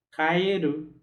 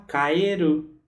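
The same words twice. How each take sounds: The two takes are said the same way.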